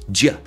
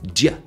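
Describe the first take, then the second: First: The words shrink to a single short sound. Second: The words shrink to a single short sound.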